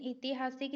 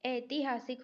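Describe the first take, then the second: First: ऐतिहासिक begun with a short "i", as itihasik; wrong pronunciation. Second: ऐतिहासिक begun with "ai", as aitihasik; correct pronunciation. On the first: Teacher rejecting a misspelling, ऐतिहासिक said as "itihasik". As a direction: open ऐतिहासिक on "i" instead of "ai". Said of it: "नहीं होता है". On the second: Teacher giving the correct spelling, ऐतिहासिक said as "aitihasik". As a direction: open ऐतिहासिक on the diphthong "ai". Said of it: "ई के बदले में यहाँ पर लगेगा ऐ". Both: Shown as a demonstration.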